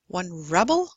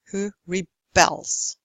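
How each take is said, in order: First: "rebel" as a noun, REB-el; stress on first syllable. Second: "rebels" as a verb, re-BELS; light re-, long stressed BELS in "rebels"; stress on second syllable. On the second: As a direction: slowly lean on BELS in "rebels". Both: Shown as a demonstration. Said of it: "you stress the syllable before".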